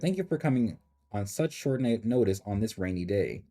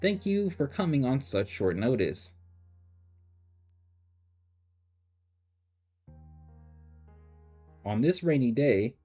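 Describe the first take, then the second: First: The sentence runs on without a break. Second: There is a break before the final phrase. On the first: The speaker calls it right. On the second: The speaker calls it wrong.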